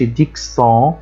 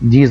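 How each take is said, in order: First: The middle consonant is sounded as ks. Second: The middle consonant is sounded as z. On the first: The speaker calls it wrong. "ما باقولش dixons خطأ" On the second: The speaker calls it right. "ينطق Z"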